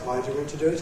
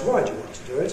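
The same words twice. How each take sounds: First: The voice rises only slightly, staying fairly low. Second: The voice rises widely from low to high. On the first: "Low rise" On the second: "And the full rise"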